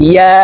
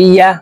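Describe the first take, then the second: No difference in how they are said.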